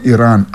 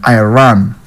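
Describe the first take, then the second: First: Said in the usual way. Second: Iran said "eye-RAN", lower; American pronunciation. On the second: Shown as a demonstration. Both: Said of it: "Americans call Iran".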